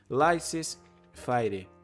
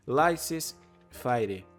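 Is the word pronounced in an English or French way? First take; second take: English; English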